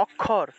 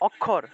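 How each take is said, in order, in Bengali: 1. মাঝের যুক্তাক্ষরটি দ্বিত্ব kh-এর মতো শোনায়। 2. মাঝের যুক্তাক্ষরটি দ্বিত্ব kh-এর মতো শোনায়।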